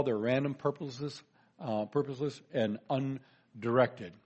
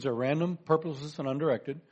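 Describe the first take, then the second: First: Each point spaced out, last one dragged slow; slow, deliberate listing. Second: Said in the usual way. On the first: Shown as a demonstration. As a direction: lay out the points one by one, slowing on undirected. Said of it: "So one at a time". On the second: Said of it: "I'm gonna make three major points".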